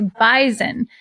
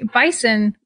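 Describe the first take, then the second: First: The middle consonant is a buzzing Z sound. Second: The middle consonant is a hissing S sound. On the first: The speaker calls it right. "they say it with a Z" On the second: The speaker calls it wrong. "like with the S"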